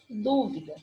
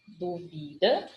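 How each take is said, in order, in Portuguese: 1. O acento está na primeira sílaba. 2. O acento está na segunda sílaba. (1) "Aqui eu tenho uma proparoxítono" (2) "é um verbo, verbo duvidar"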